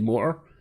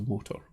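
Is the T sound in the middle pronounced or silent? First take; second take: silent; pronounced. First: The middle T is dropped, not pronounced. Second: The middle T is clearly pronounced. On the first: The speaker is not posh. "if you're not posh like me, you would say motor. So it would be a motor with a silent T" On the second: The speaker is posh. "it's a motor because I'm posh"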